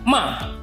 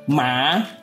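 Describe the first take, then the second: First: The pitch falls sharply from high to low. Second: The pitch rises from mid to high. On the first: It means to scold. "dimulai dari nada tinggi, kemudian langsung turun ke nada rendah" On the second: It means frog. "Nada kedua adalah nada tengah ke nada tinggi"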